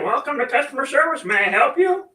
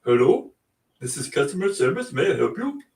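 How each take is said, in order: First: Squeaky high cartoon chicken, polite service greeting. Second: Said in the usual way. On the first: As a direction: play a chicken chirping a cheery service greeting, much higher. Chicken answers podcast as service desk. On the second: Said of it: "Like this?".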